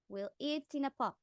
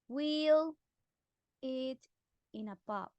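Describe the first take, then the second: First: The words run together, consonant linked to vowel. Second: The words are said separately, not joined. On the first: "they say it like this" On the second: "instead of saying"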